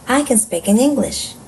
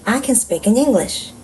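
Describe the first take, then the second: No difference in how they are said.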